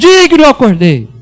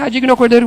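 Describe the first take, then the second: First: It is proclaimed in a loud, strong voice. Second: It is said softly, without force.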